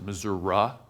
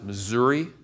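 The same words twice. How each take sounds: First: It uses the central Missouri regional pronunciation. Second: It uses the eastern Missouri regional pronunciation. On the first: The speaker is from the middle of the state. "In the middle of the state, they pronounce it" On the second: The speaker is from the eastern side of the state. "on the eastern side of the state, we pronounce it"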